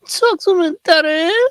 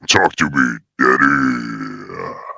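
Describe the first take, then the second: First: It is said in a normal voice. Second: It is said in a put-on deep voice.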